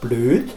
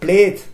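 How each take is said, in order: First: The vowel is rounded, like ö. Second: The vowel is unrounded, like e. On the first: This is the standard form. "statt blöd" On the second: This is the local dialect form. "Er sagt blöd"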